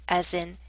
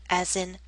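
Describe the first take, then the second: Both takes have the same delivery.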